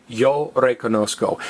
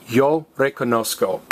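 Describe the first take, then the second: No difference in how they are said.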